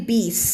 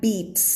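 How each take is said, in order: First: "beast" as bees, t missing entirely; "beast" with the t wholly dropped; wrong ending. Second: "beats" with a short t stop by the s; "beats" closing on a ts sound; cut-off T. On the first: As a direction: say "beast" with only an s to close. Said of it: "ไม่ beast อย่างนั้น". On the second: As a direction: clip a light t into the end of "beats". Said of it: "ไม่ใช่". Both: Shown as a demonstration.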